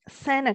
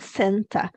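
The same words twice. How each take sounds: First: The t after the n is dropped. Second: The t after the n is clearly pronounced. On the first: "a forma que a gente vai falar é Santa Claus" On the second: "não Santa. Não está errado falar Santa"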